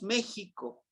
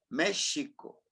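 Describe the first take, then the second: First: The middle consonant is a harsh throaty j sound. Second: The middle consonant is a soft sh sound. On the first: The speaker calls it wrong. "decimos México" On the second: The speaker calls it right. "realmente es México"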